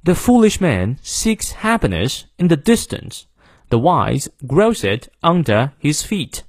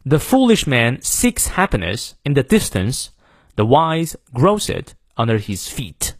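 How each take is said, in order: First: Slow British model reading, R-less "under"; British accent with stressed content words; British English. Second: Slow, stress "foolish", "seeks", "wise", "grows", "feet"; weak "the", "in", "it", strong "foolish" and "grows"; slow American English demo, content words like "feet" punched; American model reading, stressed content words. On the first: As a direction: read it slowly in British English, dropping the R in "under". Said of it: "英式发音元音后的R不念". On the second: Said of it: "好，再来一遍啊". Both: Shown as a demonstration.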